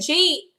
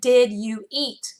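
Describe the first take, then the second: First: The words are run together into one syllable. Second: Each word is said separately and clearly. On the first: The speaker calls it wrong. "instead of saying G" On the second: The speaker calls it right. "I break my words apart"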